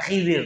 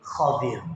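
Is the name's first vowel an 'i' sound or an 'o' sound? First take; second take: i sound; o sound. First: The first vowel is an 'i' sound. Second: The first vowel is an 'o' sound. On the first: This is the familiar local form of the name. The speaker calls it wrong. "yang bener itu bukan Khidir" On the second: This is the original form of the name. The speaker calls it right. "tetapi Khodir"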